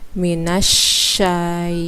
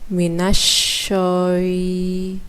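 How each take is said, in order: First: The vowel after sy is an open a. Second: The vowel after sy is rounded, like o. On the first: The speaker calls it right. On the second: The speaker calls it wrong.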